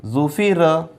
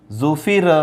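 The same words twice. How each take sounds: The two takes are said the same way.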